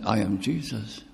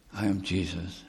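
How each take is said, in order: First: Said in the usual way. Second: "I am Jesus." repeated much softer, hushed. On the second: Shown as a demonstration. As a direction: drop "I am Jesus." to a hush.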